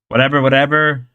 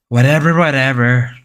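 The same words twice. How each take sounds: First: It is said in an ordinary speaking voice. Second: It is said in a low, deep put-on voice. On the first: The speaker calls it wrong. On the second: The speaker calls it right.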